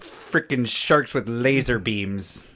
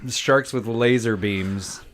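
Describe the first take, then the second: First: It is said in a Dr. Evil voice. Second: It is said in his normal voice.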